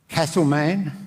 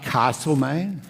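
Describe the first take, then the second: First: It is said with the Melbourne pronunciation. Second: It is said with the Sydney pronunciation. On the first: The speaker calls it right. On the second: The speaker calls it wrong. "not Castlemaine"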